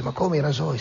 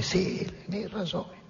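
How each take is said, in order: First: Higher-pitched, mock-astonished query; acted incredulous question. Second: High, very soft confirmation; acted hushed answer. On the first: Blacksmith questions Ahab about the razors, incredulous. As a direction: play a taken-aback blacksmith, pitched up. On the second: Ahab answers the startled blacksmith, hushed and insistent. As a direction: confirm it in a small, high hush. Ahab's answer in retold exchange.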